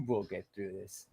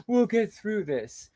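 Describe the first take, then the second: First: Low, soft mock-sincere murmur; quiet scornful parody; mock solemn quote. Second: Sarcastic sing-song mimicry; mock her fake-solemn line; parroting her line with scorn; mocking quote. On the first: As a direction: sneer it in a hushed fake-sincere voice. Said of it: "What a bunch of bullshit". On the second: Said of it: "We who?".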